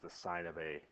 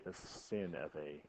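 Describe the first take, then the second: First: The first word rhymes with fine. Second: The first word rhymes with fin. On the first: The speaker calls it right. "that also means the sine of A" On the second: The speaker calls it wrong. "We do not say the sin of A"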